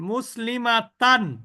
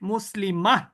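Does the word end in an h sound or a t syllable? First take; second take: t syllable; h sound. First: The word ends with a full t syllable. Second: The word ends with a short h sound. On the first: The reader keeps going without stopping. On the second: The reader stops on this word.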